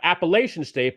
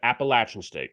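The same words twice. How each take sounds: First: The third syllable sounds like 'lay'. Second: The third syllable sounds like 'latch'. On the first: The speaker calls it wrong. "not Appalachian State" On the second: The speaker calls it right. "but Appalachian State"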